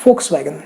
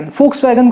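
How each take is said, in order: First: Volkswagen begun with an f, "foks-vagen"; correct pronunciation. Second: Volkswagen begun with a v, "voks-wagen"; common mispronunciation. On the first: Host correcting the German brand name, careful pronunciation. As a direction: say Volkswagen with an opening f sound. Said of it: "it should be". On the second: Host showing what many people wrongly say, mispronounced. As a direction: say Volkswagen with an opening v sound. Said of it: "कई सारे लोग Volkswagen कहते हैं". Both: Shown as a demonstration.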